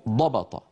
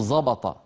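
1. الحرف الأول صامت شديد ومفخم. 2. الحرف الأول صوت مجهور شبيه بالزاي. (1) "وإنما في اللغة شيء اسمه ضبط" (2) "في العامية نجد من يستعمل صوت أز"

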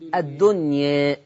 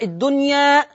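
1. الحركة الأخيرة مائلة نحو 'e'. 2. الحركة الأخيرة فتحة خالصة 'a'. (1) "وفيه التقليل" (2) "فيه الفتح"

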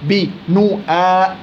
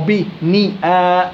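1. الحرف الذي قبل الألف الممدودة له حركة u. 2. الحرف الذي قبل الألف الممدودة له حركة i. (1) "ما بتيجي" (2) "ما بتيجي"

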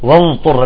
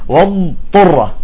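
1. الضاد مُدغمة في الطاء وتُنطق صوتاً واحداً. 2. الضاد مُمطوطة ومفصولة عن الطاء. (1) "بيدغم الضاد بالطاء وبيطلع حرف ضاء" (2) "لاحظتوا الاستطالة بالضاد"

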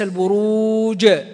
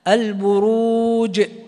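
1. يتبع الحرف الأخير صوت شبيه بالفتحة. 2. ينتهي الحرف الأخير بنبرة قصيرة مرتدة، دون حركة. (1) "لا أبالغ في القلقلة فتنقلب إلى حركة" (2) "البروج وليس البروج"

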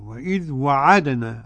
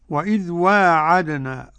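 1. الحركة بعد الواو قصيرة. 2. الحركة بعد الواو طويلة.

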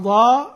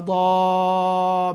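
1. يُمَدّ المدّ الطويل قليلًا فقط. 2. يُمَدّ المدّ الطويل مدًّا طويلًا. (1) "قصر" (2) "وأشباع"

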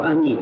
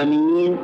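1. تبقى الحركة الأولى قصيرة. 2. تُمدّ الحركة الأولى فتكون طويلة.

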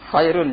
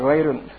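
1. Kata ini diawali dengan bunyi kh yang kasar. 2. Kata ini diawali dengan bunyi gh yang bersuara.

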